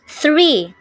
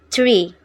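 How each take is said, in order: First: It begins with a th sound. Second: It begins with a t sound. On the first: "like three" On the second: "In Singlish, the th becomes t only"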